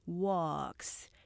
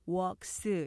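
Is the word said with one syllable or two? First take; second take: one; two. First: The word is said as one syllable. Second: The word is said as two syllables. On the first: The speaker calls it right. "이름절로 발음하셔야 되고요" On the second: The speaker calls it wrong. "이음절로 발음하기 쉽지만"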